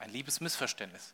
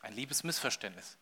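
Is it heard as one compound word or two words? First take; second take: two words; two words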